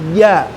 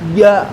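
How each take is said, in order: The two takes are said the same way.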